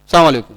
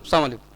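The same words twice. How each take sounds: First: The greeting is said clearly with the l sound. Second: The greeting is slurred and the l sound swallowed. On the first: The speaker calls it right. "साफ साफ बोलो" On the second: The speaker calls it wrong. "सलाम का सही तरीका ना जानने की वजह से"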